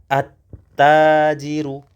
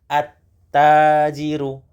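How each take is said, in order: Both takes have the same delivery.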